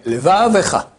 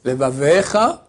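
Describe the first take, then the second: First: "levavecha" with va leaned on and ve short; short audible shva. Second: "Levavecha" with ve dragged into a full long e; overlong shva. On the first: Rabbi giving the correct reading, shva kept short. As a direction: say "levavecha" with a quick light e before cha. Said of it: "c'est la moitié d'un tséré". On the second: Rabbi showing a false reading, shva too long. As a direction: linger on the ve of "Levavecha", rising at the end. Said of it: "c'est faux". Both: Shown as a demonstration.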